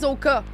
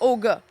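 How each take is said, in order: First: The middle consonant is a hard k sound. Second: The middle consonant is a soft g sound. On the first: This is how most people say it. The speaker calls it wrong. "Le monde dit Oka" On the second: This is the proper local name. The speaker calls it right. "mais c'est Oga"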